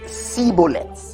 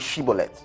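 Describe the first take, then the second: First: The word begins with an 's' sound. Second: The word begins with a 'sh' sound. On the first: The speaker calls it wrong. "He didn't say it properly" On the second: The speaker calls it right. "say shibboleth"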